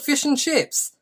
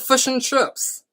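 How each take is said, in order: First: It is said in an Australian accent. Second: It is said in a New Zealand accent. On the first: "in Australia, we call it" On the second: "In New Zealand, they call it"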